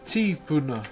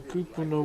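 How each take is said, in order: First: The word begins with a t sound: ti. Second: The word begins with a k sound: ku. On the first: This is the form another tribe uses. "So T I instead" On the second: This is the Hawaiian form. "T in place of K"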